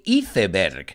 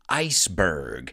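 First: The word is said with Spanish-style sounds. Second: The word is said with English-style sounds. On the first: The speaker calls it wrong. "you say Iceberg" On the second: The speaker calls it right. "we pronounce it iceberg"

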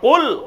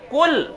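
First: The first consonant comes from deep in the throat. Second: The first consonant is a light k further forward. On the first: The command is to say something. The speaker calls it right. "گلے سے آواز لاؤ گے" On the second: The command is to eat. The speaker calls it wrong. "چھوٹی کاف کا تلفظ ادا کریں گے"

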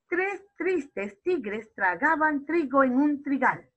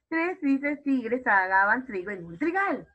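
First: It is said at a slower pace. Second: It is said at a faster pace.

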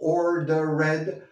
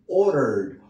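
First: The -ed ending is an extra syllable. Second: The -ed ending adds no extra syllable. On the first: The speaker calls it wrong. "No digo ordered" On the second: The speaker calls it right. "The commander ordered"

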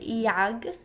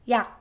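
First: The final g sound is audibly released. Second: The final sound stops before any release. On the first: The speaker calls it wrong. "in English, this would be read 약, but it's not that way in Korean" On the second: The speaker calls it right. "It's read 약 ... you drop only the g sound"

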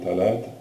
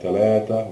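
First: The word ends without the final vowel. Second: The word ends with a final 'a' vowel. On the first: The number is followed by another noun. "we don't say ah" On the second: The number stands alone, as in counting. "when it becomes alone"

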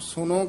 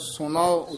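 First: The word ends in a short 'no' sound. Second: The word ends in a drawn-out 'nao' sound. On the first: The speaker calls it wrong. "आम सुनो कह देंदे ने" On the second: The speaker calls it right. "सुनाओ उच्चारण करना है"

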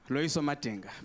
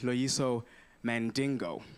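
First: The surname is said as Madinga. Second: The surname is said as Mandingo. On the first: This is the name's own pronunciation. The speaker calls it right. "my name is Loyiso Madinga" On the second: This is how others mispronounce it. The speaker calls it wrong. "they call me Loyiso Mandingo"

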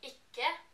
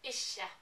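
First: It is said in an eastern Norwegian dialect. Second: It is said in a western Norwegian dialect. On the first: "I would say ikke" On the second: "they would say ikke"

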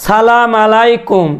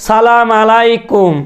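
The two takes are said the same way.

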